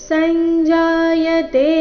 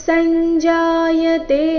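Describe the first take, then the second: The two takes are said the same way.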